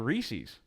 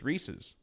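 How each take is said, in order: First: It rhymes with the word feces. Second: It sounds like the name Reese plus s. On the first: The speaker calls it wrong. "Reese's like feces" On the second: The speaker calls it right. "Like Reese?"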